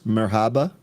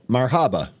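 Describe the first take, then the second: First: The first syllable sounds like 'mer'. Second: The first syllable sounds like 'mar'. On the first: "am I pronouncing that? Am I getting close?" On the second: "with a mar on the mir"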